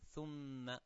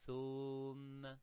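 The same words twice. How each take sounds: First: The vowel is short, held about one second. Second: The vowel is long, held about two seconds. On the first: The speaker calls it right. "thu is a 1 second short vowel" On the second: The speaker calls it wrong. "you make it 2 seconds"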